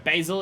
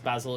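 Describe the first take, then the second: First: The word is said in an American accent. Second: The word is said in a British accent. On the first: "Basil is U S" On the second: "Basil is U K"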